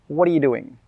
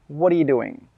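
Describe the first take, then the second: First: The words are said quickly and run together. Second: The same.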